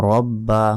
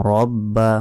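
The two takes are said the same way.

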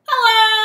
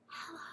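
First: It is said very loudly. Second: It is said very quietly.

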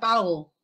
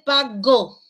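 First: The g is weakened between the vowels. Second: The g is a full stop consonant. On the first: "aquí sería pago ... La G se debilita" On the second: "Lo normal es pago, así con este sonido"

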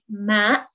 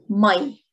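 First: The word is said in standard Arabic form. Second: The word is said in Lebanese Arabic form. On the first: "in standard Arabic" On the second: "but in Lebanese it's ماي"

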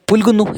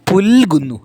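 First: The l sound is said quickly and short. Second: The l sound is held longer with more force. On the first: The speaker calls it wrong. "വേഗം പറഞ്ഞു പോവുകയല്ല" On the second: The speaker calls it right. "കുറച്ചുകൂടി ബലം, കുറച്ചുകൂടി സമയം"

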